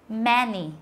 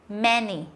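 No difference in how they are said.

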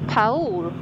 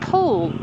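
First: The name is pronounced the Portuguese way. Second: The name is pronounced the English way.

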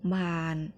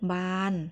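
First: The syllable is said with a low tone. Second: The syllable is said with a level mid tone.

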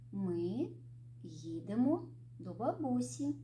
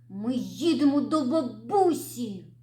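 First: It is said in a calm, even tone. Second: It is said in an angry tone. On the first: The speaker feels neutral about the trip. "Спокійно" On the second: The speaker is annoyed about the trip. "розізлившись"

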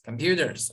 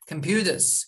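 First: The final R sound is pronounced. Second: The final R sound is dropped.

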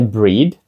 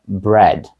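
First: The vowel is a long 'ee' sound. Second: The vowel is a short 'eh' sound. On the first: The speaker calls it wrong. "Це не breed" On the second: The speaker calls it right. "це bread"

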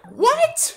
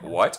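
First: It is said as a loud, high-pitched scream. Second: It is said in a normal speaking voice. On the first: "I scream" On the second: "Instead of going like"

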